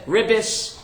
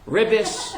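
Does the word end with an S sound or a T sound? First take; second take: S sound; S sound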